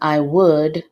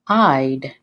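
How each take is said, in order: First: It is said as two full separate words. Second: It is said as one contracted syllable. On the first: "instead of saying I would" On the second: "you can say I'd"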